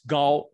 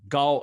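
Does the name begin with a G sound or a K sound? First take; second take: G sound; G sound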